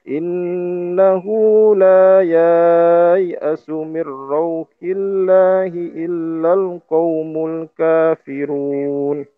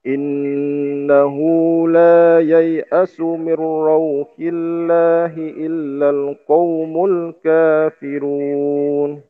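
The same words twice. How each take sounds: First: The 'ya' in yai'asu has a long vowel. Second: The 'ya' in yai'asu has a short vowel. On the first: The speaker calls it wrong. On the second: The speaker calls it right.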